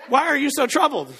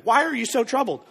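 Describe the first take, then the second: First: Line broken by laughter; can't hold back a giggle; laughing. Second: Said in the usual way. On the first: Retold or imitated. Preacher quoting Jesus, laughing through it. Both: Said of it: "don't make me laugh".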